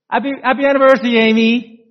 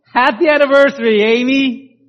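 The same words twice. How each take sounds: First: Very fast, high, gushing happy anniversary; excited greeting. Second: Bright, fast, high happy anniversary; excited greeting. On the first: Husband greeting his wife at the door, giddy. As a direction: rush it out with eager joy. Sam's second greeting, rushed. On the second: Husband greeting his wife at the door, excited. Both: Retold or imitated.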